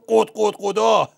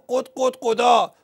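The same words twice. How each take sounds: First: It is said in a thickened, deep voice. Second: It is said in a normal voice.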